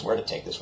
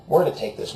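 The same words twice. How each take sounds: First: Unvoiced whispered musing; a soft whispered aside to himself. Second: Said in the usual way. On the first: Shown as a demonstration. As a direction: breathe the question as a whisper. Musing repeated three ways.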